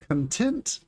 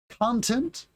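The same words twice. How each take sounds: First: ConTENT, second syllable stressed; "content" as cun-TENT, rising at the end. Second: CONtent, first syllable stressed; "content" as CON-tent, like the noun. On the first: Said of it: "the second syllable". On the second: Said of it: "stress the first syllable". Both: Shown as a demonstration.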